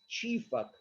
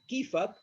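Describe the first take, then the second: First: The word begins with a ch sound. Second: The word begins with a k sound. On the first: "some part of Syria, they pronounce the letter K into che" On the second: "In Syria, we could say كيفك"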